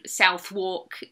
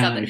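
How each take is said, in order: First: The name is said with every syllable in full. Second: The name is said in a short, reduced form. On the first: The speaker calls it wrong. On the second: The speaker calls it right.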